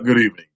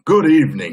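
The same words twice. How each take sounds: First: It is said in his normal voice. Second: It is said in a put-on regal voice.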